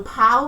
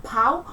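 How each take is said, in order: First: Said in the usual way. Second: Cockney "pow", final L turned into a vowel; London-style "pow", no L at the end; L vocalisation. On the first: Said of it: "L at the end of words often becomes a vowel". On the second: Shown as a demonstration. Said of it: "becomes a vowel sound".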